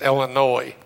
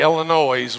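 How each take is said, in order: First: The word ends without any S sound. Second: The word ends with an audible S sound. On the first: The speaker calls it right. "Drop the S, okay? It's Illinois" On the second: The speaker calls it wrong. "If you say Illinois, we don't pay any attention"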